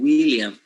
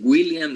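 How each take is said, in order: First: Said in the usual way. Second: "William" with a g before the w, like Gwilliam; "William" opened on a hard g sound; hard G onset. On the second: Shown as a demonstration. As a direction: say "William" as a Spanish learner would, starting Gw-. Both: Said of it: "It's not the same saying William than saying William".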